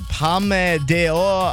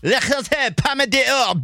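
First: It is said in a plain, non-French accent. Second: It is said in a put-on French accent.

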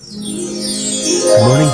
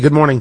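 First: It sounds warm and friendly. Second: It sounds flat and unkind.

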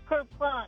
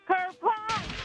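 First: It is said plainly, without much feeling. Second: It is said with lively feeling.

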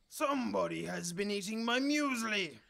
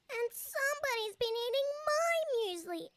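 First: It is bellowed in a big growly voice. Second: It is sobbed in a little squeaky voice.

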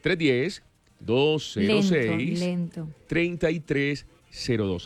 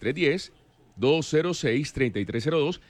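First: The number is said slowly. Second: The number is said at normal speed.

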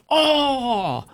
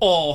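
First: It sounds wildly, over-the-top excited. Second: It sounds mildly interested and restrained.

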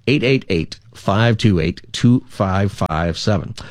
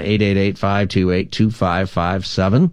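First: The number is said slowly. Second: The number is said fast.

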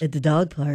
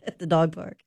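First: It is said in a put-on voice. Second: It is said in her normal voice.

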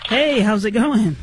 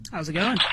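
First: It is said in a lively, enthusiastic way. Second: It is said in a flat, low-energy way.

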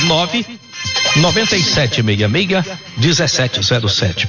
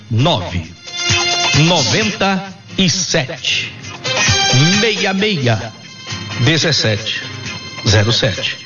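First: The number is said at a quicker pace. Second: The number is said slowly and deliberately.

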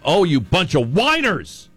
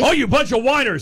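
First: It is read in a neutral tone. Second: It is read in an angry voice.

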